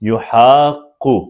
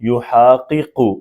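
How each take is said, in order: First: The two q sounds merge into one doubled sound. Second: The two q sounds are separated by a vowel. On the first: "तो हम इधर भी क्या यूज करेंगे" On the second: "इधर भी इदगाम पॉसिबल है"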